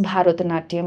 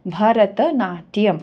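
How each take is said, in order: First: ভারতনাট্যম with a Bengali o, "bharot-natyam"; wrong pronunciation. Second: ভরতনাট্যম slowly as "bha-ra-ta-naa-tyam"; correct Sanskrit pronunciation. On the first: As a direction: demonstrate the mistaken "bharot" at the start of ভারতনাট্যম. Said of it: "don't pronounce ভারতনাট্যম". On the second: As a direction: give ভরতনাট্যম open a vowels and a sounded "ta", slowly. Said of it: "So ভরতনাট্যম যখন তুমি pronounce করছো". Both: Shown as a demonstration.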